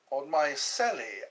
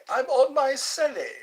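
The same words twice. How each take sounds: First: Said in the usual way. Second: "I'm on my celly" squealed high and loud. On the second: Acted. Telling chat he streams from his celly, in a high loud squeal.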